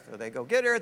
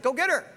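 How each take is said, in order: First: Said in the usual way. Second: King's order. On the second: Acted. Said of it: "And Abimelech said".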